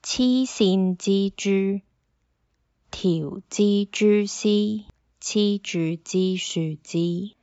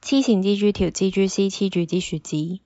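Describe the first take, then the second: First: It is said slowly. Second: It is said very fast.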